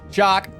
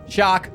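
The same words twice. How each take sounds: The two takes are said the same way.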